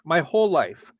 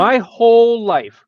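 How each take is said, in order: First: Said in the usual way. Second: Slow, louder, stress on "whole"; emphatic. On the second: Real, not acted. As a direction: lean hard on "whole", drawn out and raised.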